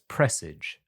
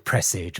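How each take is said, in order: First: The ending does not rhyme with rage. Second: The ending rhymes with rage. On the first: "but we have it as presage" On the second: "we'll do it as as fits the the the text"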